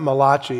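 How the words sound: The name is said with an Italian-sounding pronunciation. The speaker calls it wrong. "not Malachi. He's not an Italian prophet"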